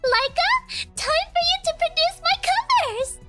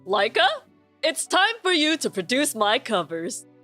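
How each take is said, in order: First: It is said in a high, spoiled-princess voice. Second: It is said in his normal voice.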